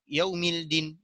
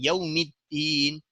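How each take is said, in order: First: A separate L is sounded before the D. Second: The L merges into a doubled D sound.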